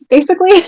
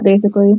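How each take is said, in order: First: "basically" popped up high and knowing; sly high punchline. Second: Said in the usual way. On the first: Acted. Joking that Kik is for cheating, high sly tag.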